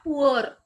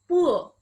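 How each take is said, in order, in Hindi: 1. यह शब्द स्पष्ट R ध्वनि के साथ समाप्त होता है। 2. यह शब्द बिना R ध्वनि के समाप्त होता है। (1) "not poor" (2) "So we'll just say poor"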